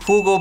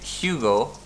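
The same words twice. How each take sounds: First: The name is said the German way. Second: The name is said the American way. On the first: The speaker calls it right. "The correct way to say it is Hugo Boss" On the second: The speaker calls it wrong. "I guess the people in the U S would say Hugo"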